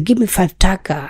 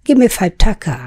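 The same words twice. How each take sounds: First: টাকা said with an aspirated ঠ again. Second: টাকা said with an aspirated ঠ; breathy aspirated T in টাকা. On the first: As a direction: Give me five টাকা with a puff of air on T. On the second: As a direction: Give me five টাকা with a heavy aspirated T. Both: Shown as a demonstration. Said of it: "টকে ঠ বলে".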